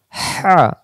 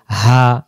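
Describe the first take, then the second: First: Higher, squeezed "হা"; hissing throaty ha. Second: Open, easy "হা"; "হা" without throat friction; plain deep ha. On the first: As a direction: rush the breath through mid-throat on "হা". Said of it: "শো শো আওয়াজে". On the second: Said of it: "দুই অক্ষর দুই স্থান থেকে". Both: Shown as a demonstration.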